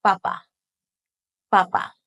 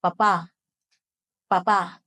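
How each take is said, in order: First: Papa with two short, equal syllables; quick equal syllables. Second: Papa with the second syllable held an extra beat; held last syllable. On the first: Teacher demonstrating the potato word, Papa quick and even. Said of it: "and say them quick". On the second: Teacher demonstrating the daddy word, papa end-stressed. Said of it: "holding that last syllable for an extra beat". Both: Shown as a demonstration.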